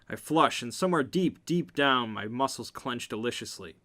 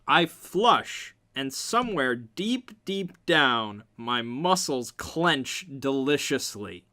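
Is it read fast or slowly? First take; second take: fast; slowly. First: It is read fast. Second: It is read slowly.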